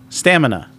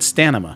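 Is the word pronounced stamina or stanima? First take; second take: stamina; stanima. First: The m sound comes before the n sound. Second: The n sound comes before the m sound. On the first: The speaker calls it right. "Say it right" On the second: The speaker calls it wrong. "You said stanima"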